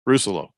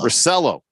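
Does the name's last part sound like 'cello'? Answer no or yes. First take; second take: no; yes. First: The ending does not sound like 'cello'. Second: The ending sounds like 'cello'. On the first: The speaker calls it wrong. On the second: The speaker calls it right.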